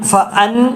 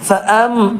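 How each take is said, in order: First: The syllable ends in an n sound. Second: The syllable ends in an m sound. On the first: The speaker calls it wrong. "എന്ന് പറയരുത്" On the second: The speaker calls it right. "നൂനിന് പകരം മീമ് പറയാം"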